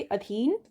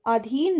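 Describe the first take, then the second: First: अधीन with short opening a; correct pronunciation. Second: अधीन with long opening aa; wrong pronunciation. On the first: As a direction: say अधीन as a-dheen. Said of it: "ना होके अधीन". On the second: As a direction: say अधीन as aa-dheen. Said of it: "अधीन ना होके". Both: Shown as a demonstration.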